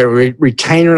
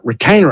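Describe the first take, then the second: First: Said in the usual way. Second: "Retainer?" asked with a baffled rising tune; "Retainer?" repeated back as a clueless question; "Retainer?" with a confused upward lilt; puzzled echo. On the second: Retold or imitated.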